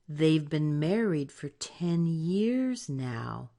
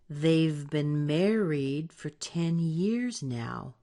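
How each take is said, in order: No difference in how they are said.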